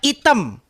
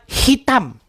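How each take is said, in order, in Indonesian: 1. Kata itu diawali tanpa bunyi h. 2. Kata itu diawali dengan bunyi h.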